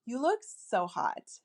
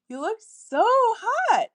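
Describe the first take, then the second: First: Said in the usual way. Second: Much higher, slow and louder, lilting; playful lilting voice. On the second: Shown as a demonstration. Telling a guy he looks hot, high playful lilt. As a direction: swoop way up on hot, teasing. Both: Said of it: "fun, lilting, feminine, playful voice".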